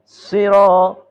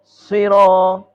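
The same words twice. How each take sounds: The two takes are said the same way.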